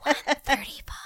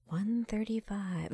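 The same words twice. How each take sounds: First: High put-on announcer read. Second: Soft, slow flat announcement; quiet deadpan. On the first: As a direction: call out the weight like a ring announcer. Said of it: "he would say". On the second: Pretend. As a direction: announce it softly and slowly. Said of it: "he'd be like".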